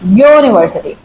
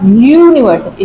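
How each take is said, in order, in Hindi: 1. यह शब्द y ध्वनि से शुरू होता है। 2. यह शब्द एक सामान्य स्वर ध्वनि से शुरू होता है। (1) "So the sound comes like yo, it's not a vowel sound" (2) "It's not university"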